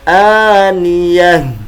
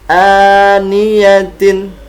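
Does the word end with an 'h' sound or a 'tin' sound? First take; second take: h; tin. First: The word ends with a silent-vowel 'h' sound. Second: The word ends with a full 'tin' syllable. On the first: The reader stops at the end of the verse. "ketika kita ingin wakaf atau berhenti, maka dia dibaca dengan aniyah" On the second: The reading continues without stopping. "Seperti contoh aniyatin"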